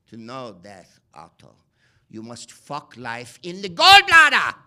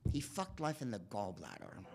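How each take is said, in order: First: Big hammed-up mad scientist proclamation; Udo Kier as Frankenstein. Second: Softly, reverently, a touch hushed; gentle, understated tribute; quiet admiring echo. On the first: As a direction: roar it like a deranged European doctor. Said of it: "And Udo Kier says in the movie". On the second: Retold or imitated. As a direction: savour the line like a fond memory. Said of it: "I'm like".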